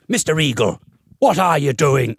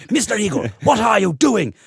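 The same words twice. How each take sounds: First: Teacher impression slipping into Cork; accidental Cork accent. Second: Higher-pitched imitation of a stern schoolmistress; posh authoritative teacher. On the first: Music teacher stopping the class to challenge a pupil, in a Cork accent. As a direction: imitate a stern teacher with a Cork lilt. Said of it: "I'm doing a Cork accent now". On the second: Music teacher stopping the class to challenge a pupil, posh and stern. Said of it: "very posh, kind of authoritative teacher".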